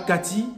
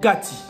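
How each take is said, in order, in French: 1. Il se dit comme le prénom français familier. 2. Il se dit avec la prononciation lingala. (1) "Pas Kati" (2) "mais Kati"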